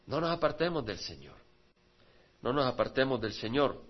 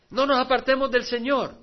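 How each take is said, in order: First: Dropped to a quiet, earnest plea; soft repetition. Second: Called out loud to the congregation; rousing exhortation. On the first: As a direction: bring it down for the echo. Misma frase repetida en voz baja. (repetición en voz baja) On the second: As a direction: lift it as a rallying cry. Exhortación repetida, luego suave. (exhortación en voz alta) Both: Acted.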